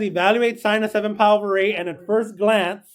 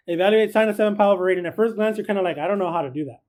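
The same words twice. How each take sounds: First: Said in the usual way. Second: Fast reread. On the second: Shown as a demonstration. Teacher rushing through the problem again for the class, fast. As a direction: rattle the problem off quickly.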